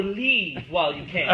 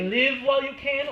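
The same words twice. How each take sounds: First: "Leave" drawn out with a long ee, as in sleeve; stress on leave. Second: "Live" stretched slow with a short i, as in give; stress on live. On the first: Man in chair weighing the other reading, stretching "Leave". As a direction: slowly sound out "Leave while you can" with a long ee. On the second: Man in chair testing what the record says, sounding out "Live". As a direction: slowly sound out "Live while you can" with a short i. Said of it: "Does she say". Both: Shown as a demonstration.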